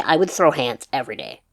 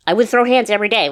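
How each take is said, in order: First: Said in the usual way. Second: Louder, higher emphatic repeat. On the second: Real, not acted.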